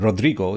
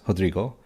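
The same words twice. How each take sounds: First: The name is pronounced the Spanish way. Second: The name is pronounced the Portuguese way. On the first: The speaker calls it wrong. "That's the more uh, Spanishized pronunciation" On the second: The speaker calls it right. "That's the Portuguese pronunciation of his name"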